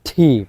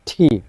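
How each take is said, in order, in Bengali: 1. "t"-তে জোরালো বাতাসের ফুঁ আছে। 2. "t"-তে জোরালো বাতাসের ফুঁ আছে।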